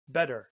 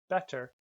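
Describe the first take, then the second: First: The middle consonant sounds like a soft D. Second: The middle consonant is a crisp T sound. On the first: "in American English, we say uh, better... We often change those T's to a D" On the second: "in British English, that's better"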